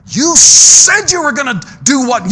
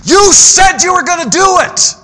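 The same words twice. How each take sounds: First: Slow, loud, rising challenge; pressing question. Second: High, loud preaching shout; shouted rebuke. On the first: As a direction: drag it out and demand the answer. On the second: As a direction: hammer the promise home at full force. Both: Acted. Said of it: "preacher pressing the congregation".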